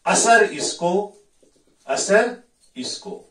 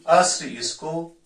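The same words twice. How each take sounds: First: असर spelled out slowly in two syllables "a-sar", louder; slow, careful असर with a full vowel before r; pron: asar. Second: अस्र said as one clipped syllable "asr", slowly and higher; slow अस्र with no vowel between s and r; pron: asr. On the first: Teacher showing students the right reading असर, slowly. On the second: Teacher showing students the wrong reading अस्र, slowly. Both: Shown as a demonstration. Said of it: "अगर हम इसको असर पढ़ेंगे".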